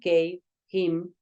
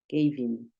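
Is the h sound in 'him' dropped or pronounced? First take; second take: pronounced; dropped. First: The h at the start of him is pronounced. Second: The h at the start of him is dropped. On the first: The speaker calls it wrong. "no vas a decir" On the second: The speaker calls it right. "Que esta H se pierde"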